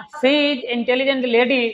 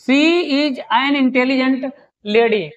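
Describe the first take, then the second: First: Said in the usual way. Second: Spaced out very slowly, word by word; slow dictation. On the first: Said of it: "अब यहाँ पर". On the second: Shown as a demonstration. Teacher reading the example aloud to students, very slow. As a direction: dictate it for the board. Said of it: "और देखिए".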